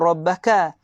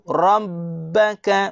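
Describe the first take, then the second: First: The b sound is short and single. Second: The b sound is held long and doubled. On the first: The speaker calls it wrong. "Bukan rabbaka" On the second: The speaker calls it right. "Lepas itu jaga sabdu"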